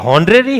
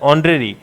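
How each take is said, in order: First: The word begins with an h sound. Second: The word begins directly with a vowel. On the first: The speaker calls it wrong. "इसमें भी एच जो है ना वो क्या है? साइलेंट है।" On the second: The speaker calls it right. "बोला जाता है ऑनरेरी"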